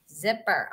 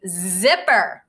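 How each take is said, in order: First: "Zipper" repeated much softer as an echo; soft repeat of "Zipper" for the kids. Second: Said in the usual way. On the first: Shown as a demonstration. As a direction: say "Zipper" again quietly, like the class answering. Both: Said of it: "Say it with me".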